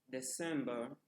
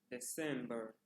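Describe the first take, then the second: No difference in how they are said.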